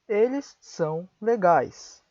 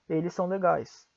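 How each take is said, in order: First: Each word is said separately with pauses. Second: The words run together, the two s sounds joined. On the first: "Estou pronunciando de forma pausada, palavra por palavra" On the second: "Um brasileiro diria"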